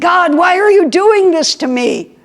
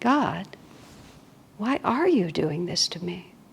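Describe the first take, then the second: First: It sounds resentful and complaining. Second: It sounds soft and surrendering. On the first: The heart fights to get its likes and dislikes back. "Does the heart rush out to use its willpower to get its likes and dislikes back?" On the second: The heart lets go of its likes and dislikes. "Or does it just surrender them"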